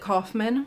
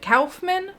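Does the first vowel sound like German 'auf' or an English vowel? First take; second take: English vowel; German auf. First: The first vowel does not sound like German 'auf'. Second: The first vowel sounds like German 'auf'. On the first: The speaker calls it right. "he pronounces it Kaufman" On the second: The speaker calls it wrong. "in the past I have pronounced it Kaufman"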